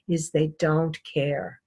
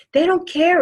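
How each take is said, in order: First: Low, soft and slow, almost to herself; quiet aside. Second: Much higher and louder, punching don't; emphatic repeat. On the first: A lecturer quietly telling the class they don't care. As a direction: let it drop away softly. Sums up how they dress. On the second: A lecturer stressing to the class they don't care. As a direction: hit "don't" hard the second time round. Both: Acted.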